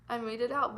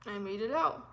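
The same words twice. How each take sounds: First: Said in the usual way. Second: Tearful relief. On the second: Real, not acted.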